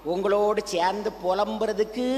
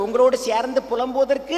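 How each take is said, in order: First: Said in the usual way. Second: A touch louder on உங்களோடு. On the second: Shown as a demonstration. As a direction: push up the volume on the repeat. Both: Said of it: "சத்தமா சொல்லுங்க".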